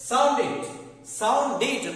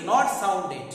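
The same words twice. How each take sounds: First: "sounded" as "soun-did", loud; short i at the end of "sounded"; correct -did ending. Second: "sounded" as "soun-ded", loud; wrong -ded ending. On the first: Teacher models the right form, "sounded" with -did. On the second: Teacher rejects the mistake, "sounded" with -ded. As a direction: open e at the end of "sounded". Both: Shown as a demonstration.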